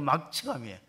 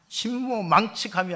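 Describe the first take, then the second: First: The third syllable is pronounced mak. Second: The third syllable is pronounced mang. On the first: The speaker calls it right. "발음을 잘 하셔야 돼" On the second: The speaker calls it wrong. "아니고"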